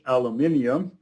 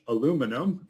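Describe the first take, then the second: First: The word is said in a British accent. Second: The word is said in an American accent. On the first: "in normal English" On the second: "first in American English"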